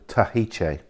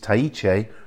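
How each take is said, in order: First: The h sound is clearly pronounced. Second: The h sound is nearly silent. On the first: The speaker calls it wrong. "rather than Tahiche" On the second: The speaker calls it right. "the H almost disappears in that. It's Tahiche"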